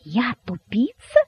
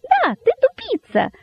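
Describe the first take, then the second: First: Slow question climbing high; drawn-out incredulous question; disbelieving. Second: Extremely high, squeaky glee; rapturously shouting rabbit. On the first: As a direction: repeat it slowly as if you misheard. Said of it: "не веря своим ушам". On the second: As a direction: squeal the insult in delight. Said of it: "восторженно выкрикнул кролик". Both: A narrator's reading.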